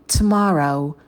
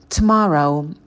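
No difference in how they are said.

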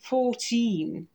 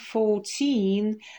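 First: The stress is on the first syllable. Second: The stress is on the last syllable.

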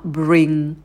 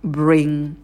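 Both takes have the same delivery.

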